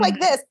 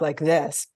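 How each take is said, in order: First: The voice is pitched high. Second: The voice is pitched low. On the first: The speaker calls it wrong. "don't talk" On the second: The speaker calls it right. "keep your the pitch of your voice low"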